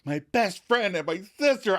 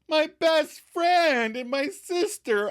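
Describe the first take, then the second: First: Higher, hurt and accusing; angry accusation. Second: Much higher, slow and delighted; happy disbelief. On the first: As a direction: throw the words at him as betrayal. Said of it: "verbal assault on Chandler". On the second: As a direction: savour each word with joy. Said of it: "Ross happily acknowledges". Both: Retold or imitated.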